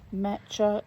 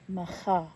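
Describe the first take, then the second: First: The middle consonant is a 'tch' sound. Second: The middle consonant is throaty, as in loch. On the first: The speaker calls it wrong. "I've been pronouncing that incorrectly" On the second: The speaker calls it right. "the C H is soft as in loch"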